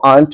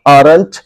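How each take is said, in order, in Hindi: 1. इस शब्द से 'r' की ध्वनि छोड़ दी जाती है। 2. इस शब्द में 'r' की ध्वनि बोली जाती है।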